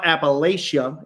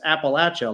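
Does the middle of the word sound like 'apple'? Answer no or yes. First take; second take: no; yes. First: The middle does not sound like 'apple'. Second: The middle sounds like the word 'apple'. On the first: The speaker calls it wrong. "It's not" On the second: The speaker calls it right. "like I'm gonna throw an apple at you"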